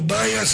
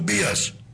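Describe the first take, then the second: First: The name has an 'ai' vowel sound. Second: The name has a plain 'i' vowel sound. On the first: The speaker calls it wrong. "δεν είναι το Μπάιας" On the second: The speaker calls it right. "αλλά είναι το Μπίας"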